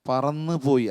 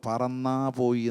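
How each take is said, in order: First: The first word ends in a short 'u' vowel. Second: The first word ends in a long 'aa' vowel. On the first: The speaker calls it right. "പറന്ന് പോയി അല്ലെങ്കിൽ പറന്നു പോയി എന്ന് പറഞ്ഞു" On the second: The speaker calls it wrong. "പറന്നാ പോയി എന്ന് അങ്ങനെ കേട്ട്"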